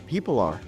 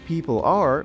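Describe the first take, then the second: First: The two words are linked together smoothly. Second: The two words are said separately.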